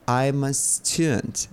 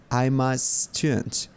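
Both takes have the same delivery.

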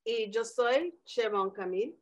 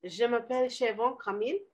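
First: Spanish name intro, lightly accented; Spanish self-intro. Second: French self-intro. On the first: Podcast sign-off, introducing herself in Spanish, light Spanish accent. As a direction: say it in Spanish with a rolling lilt. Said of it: "Je m'appelle who?". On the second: Told to put French in, she tries a light French accent. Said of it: "you just got to put the French in there". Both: Shown as a demonstration.

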